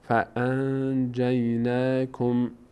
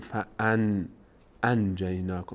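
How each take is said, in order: First: The n is hidden and said through the nose. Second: The n is said clearly from the mouth. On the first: The speaker calls it right. "صدا رو میندازیم تو بینی" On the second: The speaker calls it wrong. "نمیگیم"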